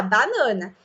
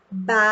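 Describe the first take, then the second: First: Said in the usual way. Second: BANANA broken into ba, na, na; syllable by syllable. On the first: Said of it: "A gente sempre vai falar a palavra por inteiro". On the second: Shown as a demonstration. Teacher shows how not to dictate, BANANA syllable by syllable. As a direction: chop BANANA into syllables with long pauses. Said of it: "a gente não vai soletrar assim".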